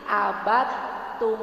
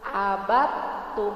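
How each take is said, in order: First: The d merges fully into the t. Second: The same.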